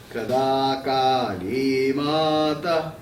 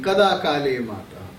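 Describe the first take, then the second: First: It is recited with a musical, tuneful tone. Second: It is said in a plain speaking voice.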